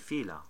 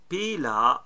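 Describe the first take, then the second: First: The word begins with an f sound. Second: The word begins with a p sound. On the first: "they're gonna say fila with the f" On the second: "Pila is also better"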